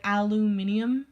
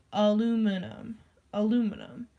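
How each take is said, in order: First: Aluminium as "al-yoo-MIN-ee-um", ending on a rise; British aluminium. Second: Aluminum as "uh-LOO-mi-num", said twice; American aluminum. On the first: Contrasting how they say it with us, British aluminium. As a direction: give aluminium its extra ee syllable. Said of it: "that's more long than aluminium". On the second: Contrasting how we say it with them, American aluminum. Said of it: "we say aluminum". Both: Shown as a demonstration.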